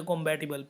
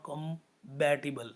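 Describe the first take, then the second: First: Compatible said as combatible, the P voiced as a B. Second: Said in the usual way. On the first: Shown as a demonstration. Teacher showing Rupa's mix-up, compatible with a B sound. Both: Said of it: "बी and पी के बीच में confusion है".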